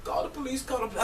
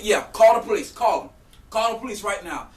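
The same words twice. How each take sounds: First: High, soft, mock tearful plea; imitated near-crying. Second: Higher, loud dare; retold defiant shout. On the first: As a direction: imitate her voice giving out near tears. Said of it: "she sounded like she was about to start crying". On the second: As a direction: re-enact daring someone to go ahead. Acts out daring her back.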